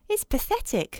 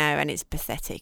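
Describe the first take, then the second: First: It is said in a gentler tone. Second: It is said in a harsh tone.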